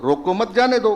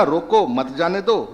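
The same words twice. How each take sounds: First: रोको मत together, then जाने दो; group रोको with मत, split off जाने दो; comma after मत. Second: रोको alone, then मत जाने दो together; brief break between रोको and मत; comma after रोको. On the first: Doctor explaining the shifted comma, break after मत. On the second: Doctor explaining the shifted comma, break after रोको. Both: Shown as a demonstration. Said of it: "coma का ही तो इधर से उधर हुआ".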